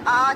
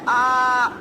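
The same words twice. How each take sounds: First: The vowel is said at normal length. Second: The vowel is stretched out longer. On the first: "जो आम अलिफ होता है हमारा, उसकी आवाज क्या आती है" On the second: "इसको हम खींच के अदा करेंगे"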